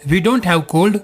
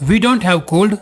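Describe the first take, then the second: No difference in how they are said.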